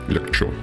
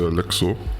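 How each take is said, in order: First: The middle consonant is a 'ch' sound. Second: The middle consonant is a 'ks' sound. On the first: The speaker calls it right. "C Z is like ch" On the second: The speaker calls it wrong. "I know I'm pronouncing that wrong"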